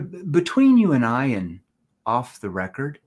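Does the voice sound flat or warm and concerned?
warm. The voice is warm, soft and concerned. The speaker sounds caring and confidential. The speaker calls it right. "hear my tone, hear the empathy, the concern in my tone"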